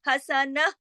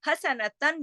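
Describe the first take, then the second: First: The word ends with a soft 'h' sound. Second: The word ends with a nasal 'tan' sound. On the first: The reader stops on the word. "वक़्फ़ करने की सूरत में हसनह हो जाएगा" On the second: The reader does not stop on the word. "मिसाल के तौर पर हसनतन जो है"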